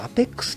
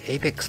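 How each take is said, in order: First: The word begins with an 'ah' sound. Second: The word begins with an 'ay' sound.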